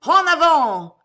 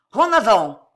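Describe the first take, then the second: First: High, loud, roared answer; thunderous battle cry. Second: Loud rallying shout; yelled battle order. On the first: Three hundred voices answering Cato, thunderous roar. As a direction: roar it back like a whole crowd. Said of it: "répondit le tonnerre des trois cents voix". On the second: Cato launching her army, yelled order. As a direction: shout the charge, much louder. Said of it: "hurla Cato". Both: A narrator's reading.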